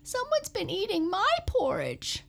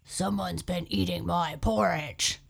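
First: It is said in a high squeak. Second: It is said in a deep growl.

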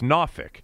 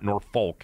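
First: Norfolk is said the way locals say it. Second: Norfolk is said in a non-local way. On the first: The speaker calls it right. "exactly the way it's pronounced by people who are from down there" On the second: The speaker calls it wrong. "It's not Norfolk"

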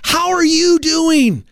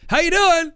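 First: It is asked sincerely, with real interest. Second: It is tossed off casually in passing.

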